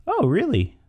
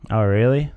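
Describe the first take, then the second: First: High-pitched startled reaction; shocked. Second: Uncaring, token question; feigned interest. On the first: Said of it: "it kinda shocks the person". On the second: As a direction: ask it without much caring. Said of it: "you don't care much". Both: Shown as a demonstration.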